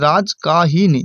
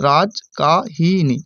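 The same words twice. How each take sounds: First: Said in the usual way. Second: Rajkahini said very slowly, syllable by syllable; slow syllable split. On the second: Shown as a demonstration. Teacher breaks the word into syllables for students, very slow. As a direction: stretch Rajkahini out, one syllable at a time. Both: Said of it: "Rajkahini যদি উচ্চারণ করি".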